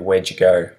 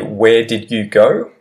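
First: Did is reduced to a d on where. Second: The word did is said in full.

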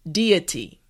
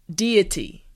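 Both takes have the same delivery.

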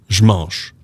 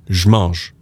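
The two takes are said the same way.

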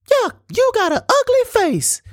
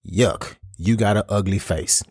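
First: It is said in a funny, high-pitched voice. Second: It is said in a normal voice. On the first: The insult seems laughable and harmless. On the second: The insult feels hurtful.

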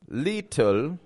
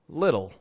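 First: The middle T is a full, crisp T. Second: The middle T is a soft flap. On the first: The speaker calls it wrong. "I'm also not saying little" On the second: The speaker calls it right. "With a flap T and a dark L"

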